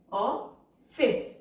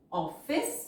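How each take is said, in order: First: Office split into "of" and "fice" with a long pause; syllable by syllable. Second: Said in the usual way. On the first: Shown as a demonstration. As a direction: break office in two while dictating. Syllable-by-syllable while writing.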